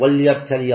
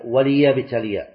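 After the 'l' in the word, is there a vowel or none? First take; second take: none; vowel. First: The l sound has no vowel after it. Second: The l sound is followed by a short i vowel. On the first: The speaker calls it wrong. "وهذه يخطئ فيها بعض يقرؤون" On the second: The speaker calls it right. "لا، هي وليبتلي"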